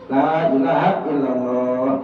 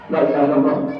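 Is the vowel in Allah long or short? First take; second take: long; short. First: The vowel in Allah is drawn out long. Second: The vowel in Allah is cut short. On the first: The speaker calls it right. "Panjangin dikit" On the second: The speaker calls it wrong.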